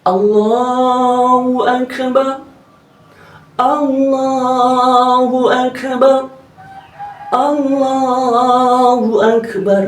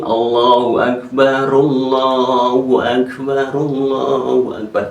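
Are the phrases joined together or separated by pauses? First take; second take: separated; joined. First: There is a pause between each phrase. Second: The phrases run together without pauses.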